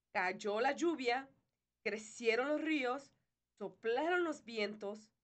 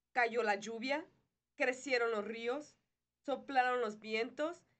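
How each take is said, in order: Both takes have the same delivery.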